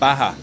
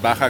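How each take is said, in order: First: It is said with an American English pronunciation. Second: It is said with a Spanish pronunciation. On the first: "how do they pronounce it?" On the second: "if I pronounce it Baja California, it's wrong?"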